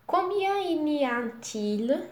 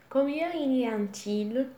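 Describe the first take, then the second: First: Slow, careful French model read; slow model phrase. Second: Said in the usual way. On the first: Shown as a demonstration. Teacher modelling for students, slow and clear. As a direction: say it slowly for students to copy.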